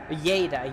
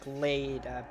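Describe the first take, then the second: First: The name begins with a Y sound. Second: The name begins with an L sound. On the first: This is how Spanish speakers would say it. "because it's double L. So double L is Y" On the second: This is how English speakers would say it. "in English, you would say like Leda"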